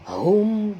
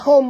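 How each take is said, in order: First: The h sound comes deep from the throat. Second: The h sound is light, not from the throat. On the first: The speaker calls it right. "tapi hum dalam dekat halqum kita" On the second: The speaker calls it wrong. "bukan hum bunyi dia"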